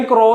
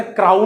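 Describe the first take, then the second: First: ക്രോ with a pure long "oh"; ക്രോ ending on an open O, no "ow" glide; long O sound. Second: ക്രൗൺ with an "ow" glide, closed by n; ക്രൗൺ rhyming with town; "ow" sound. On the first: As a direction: read ow as "oh" in ക്രോ. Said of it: "ക്രോ എന്നാണ്". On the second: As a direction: read ow as "au" in ക്രൗൺ. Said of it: "പക്ഷെ ഇത് വായിക്കുന്ന ക്രൗൺ എന്നാണ്". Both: Shown as a demonstration.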